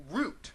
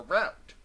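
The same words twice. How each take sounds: First: Route said to rhyme with boot; route with an oo vowel; ROUTE like root. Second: Route said to rhyme with out; route with an ow vowel; ROUTE like rout. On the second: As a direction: say route as "rowt". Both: Shown as a demonstration. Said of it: "pronounce differently depending on the context".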